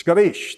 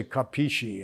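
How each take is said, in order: First: Capisci clipped to "kah-beesh", punched out; Italian pronunciation. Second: Capisci spelled out as "ka-pee-shee", all syllables; mocking a wrong Capisci, every vowel said; imitating mispronunciation. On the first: Shown as a demonstration. Showing the right way after a wrong one, a punchy kabeesh. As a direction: Capisci the old-neighborhood way, "kabeesh". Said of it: "That's how we say it". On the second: Imitating people who say it wrong, over-pronounced Capisci. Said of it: "people mispronounce Italian words".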